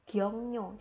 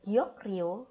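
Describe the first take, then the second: First: The sounds assimilate, giving ng and ny. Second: Each letter is read separately, with k and r. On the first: The speaker calls it right. "Otomatis kan lebih enak kalau diucapkan yang giong nyo" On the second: The speaker calls it wrong. "kalau kita baca ini jadi giok rio itu salah"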